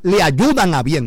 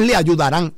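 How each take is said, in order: First: Ayudan slowed and weighted, the correct present tense; slow emphasis on ayudan. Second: Said in the usual way. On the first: Shown as a demonstration. Preacher correcting the congregation, slow firm stress on ayudan. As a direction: lean slowly on ayudan a bien. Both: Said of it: "No es le ayudarán".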